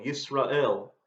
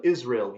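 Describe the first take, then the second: First: "Yisrael" said in Hebrew, starting with a Y; Hebrew pronunciation. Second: Said in the usual way. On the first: Shown as a demonstration. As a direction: sound out "Yisrael" as yees-rah-EL. English name, then Hebrew form.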